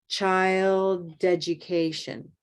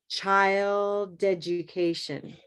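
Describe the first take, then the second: Both takes have the same delivery.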